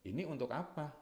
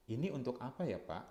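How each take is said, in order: First: Higher, pointed demand that questions the motive; challenging question. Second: Gentle, genuinely curious asking; sincere polite question. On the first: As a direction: throw "Ini untuk apa?" up high as a challenge. (nada tinggi yang mempertanyakan, menantang) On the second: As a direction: ask "Ini untuk apa ya, Pak?" politely, really wanting to know. (bertanya dengan tulus dan sopan) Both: Shown as a demonstration. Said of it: "Intonasi sudah akan membedakan".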